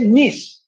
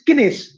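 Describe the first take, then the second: First: The k sound is silent at the start. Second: The k sound is pronounced at the start. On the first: The speaker calls it wrong. "they do not say nis" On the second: The speaker calls it right. "The pronunciation is kinis"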